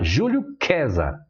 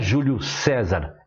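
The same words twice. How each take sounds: First: César begins with a K sound. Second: César begins with an S sound. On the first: The speaker calls it right. "o C, no começo das palavras em latim, tinha um som de Q" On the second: The speaker calls it wrong. "Não era"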